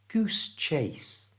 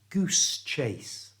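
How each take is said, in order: The two takes are said the same way.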